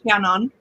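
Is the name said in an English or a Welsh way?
Welsh. The name is said with a Welsh pronunciation. This is how the owner of the name says it. "I say my name very Welsh"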